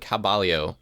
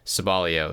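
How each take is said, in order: First: The word begins with a K sound. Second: The word begins with an S sound.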